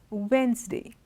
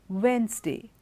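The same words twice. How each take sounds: No difference in how they are said.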